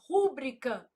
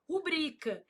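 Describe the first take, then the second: First: The stress falls on the first syllable. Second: The stress falls on the second syllable. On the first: The speaker calls it wrong. "Não, não existe, meu filho" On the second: The speaker calls it right. "O certo é o quê?"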